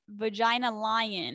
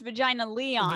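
First: The second word sounds like 'lion'. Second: The second word sounds like 'Leon'. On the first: "I always pronounce it as Vagina Lion" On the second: "You're saying it's Vagina Leon"

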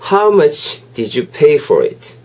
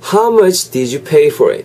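First: It is said slowly. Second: It is said at normal speed.

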